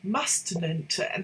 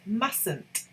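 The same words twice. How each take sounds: First: The first T sound is pronounced. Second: The first T sound is silent. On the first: The speaker calls it wrong. "lots of people say mustn't, mustn't. That's not how you pronounce it" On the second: The speaker calls it right. "It's mustn't. ... the first T is a silent T"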